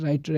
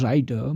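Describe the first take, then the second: First: Said in the usual way. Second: "writer" with the t softened to a d, like "rider"; American flapped t. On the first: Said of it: "if t occurs between vowels". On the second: Shown as a demonstration. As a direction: flap the t in "writer" into a quick d. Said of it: "it is pronounced d". ("writer" में t को d जैसा बोलें)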